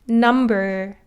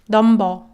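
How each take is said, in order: First: The N is a clear English-style N. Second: The N is Korean-style, sounding slightly like D.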